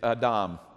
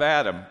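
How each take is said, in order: First: The name is said with foreign-sounding vowels. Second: The name is said with local American vowels. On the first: The speaker calls it right. "It's Adam" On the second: The speaker calls it wrong. "which is mispronounced"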